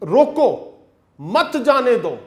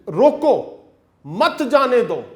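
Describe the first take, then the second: First: The pause comes after 'roko'. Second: The pause comes after 'roko'.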